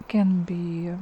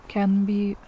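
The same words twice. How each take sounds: No difference in how they are said.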